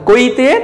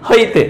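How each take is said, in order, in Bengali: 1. শব্দটি k ধ্বনি দিয়ে শুরু হয়। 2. শব্দটি h ধ্বনি দিয়ে শুরু হয়। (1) "আমরা যদি বলি কইতে" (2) "তারা বলবে কি?"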